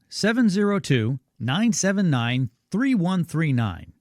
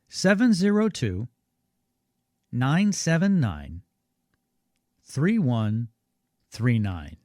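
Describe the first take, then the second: First: The number is said at normal speed. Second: The number is said more slowly.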